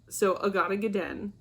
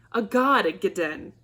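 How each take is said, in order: First: Said in the usual way. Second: Annoyed exclamation. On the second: Shown as a demonstration. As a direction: spit out "A God, a Gaden" as an irritated oath. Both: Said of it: "is an exclamation of annoyance".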